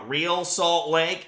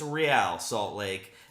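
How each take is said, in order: First: Real sounds like the ordinary English word real. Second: Real is said differently from the English word. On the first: This is how the locals say it. The speaker calls it wrong. "everybody here in the state say uh" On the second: This is the proper pronunciation of the name. The speaker calls it right. "That's the correct pronunciation"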